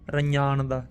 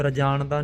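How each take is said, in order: First: ਰੰਜਾਨ ਦਾ with palatal "ny" in place of "j"; correct nyanya sound. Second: ਰਜਾਨ ਦਾ with a plain "j"; misread ਰਜਾਨ ਦਾ. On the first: Teacher modelling a hard letter, ਰੰਜਾਨ ਦਾ with nasal "ny". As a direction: say ਰੰਜਾਨ ਦਾ as "ra-nyaan-da". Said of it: "nyanya ਅੱਖਰ ਹੈ ਬੜਾ ਔਖਾ". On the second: Teacher showing the misreading, ਰਜਾਨ ਦਾ with hard "j". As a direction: say ਰਜਾਨ ਦਾ as "ra-jaan-da", no nasal consonant. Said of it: "ਰਜਾਨ ਦਾ ਨਹੀਂ ਪੜ੍ਹਨਾ". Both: Shown as a demonstration.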